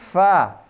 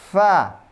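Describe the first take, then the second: The two takes are said the same way.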